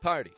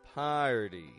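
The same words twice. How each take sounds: First: The first vowel is short and clipped. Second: The first vowel is long and stretched out. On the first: The speaker calls it wrong. "I don't just give it a short" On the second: The speaker calls it right. "I'm stretching out the vowel sound crystal clearly"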